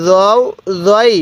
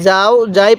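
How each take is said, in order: First: "রও রই" said as heavy "zow, zoy"; correct heavy Za. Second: "যাও যাই" with open a vowels; wrong light Za. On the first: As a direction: start "রও রই" with thick z, rounded o. ("রও রই" মোটা য-ধ্বনি, গোল ও দিয়ে) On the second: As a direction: show the mistake "যাও যাই", thin and unrounded. ("যাও যাই" ভুল করে পাতলা আ-ধ্বনিতে) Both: Shown as a demonstration. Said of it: "অনেকেই যাও যাই পড়বো না".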